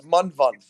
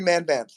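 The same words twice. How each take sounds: First: Manvant said as "MUN-vunt", short u vowels; Manvant, careful Indian-style pronunciation; corrected pronunciation. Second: Manvant said as "MAN-bant", flat a vowels; anglicized name. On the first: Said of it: "It's Manvant". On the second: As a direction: Manvant with both vowels like "cat". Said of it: "I'm calling you Manvant". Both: Shown as a demonstration.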